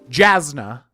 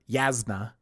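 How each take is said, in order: First: The name begins with a J sound. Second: The name begins with a Y sound. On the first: This is how the speaker reads the name. "which I'm gonna pronounce Jasna" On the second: This is how others in the book club said it. "people were pronouncing her Yasna"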